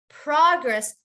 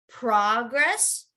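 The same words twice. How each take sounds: First: The stress is on the first syllable. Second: The stress is on the second syllable. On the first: It is a noun meaning advancement. "noun would be you would ha- want to emphasize the beginning" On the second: It is a verb meaning to move forward. "the verb you would say to progress"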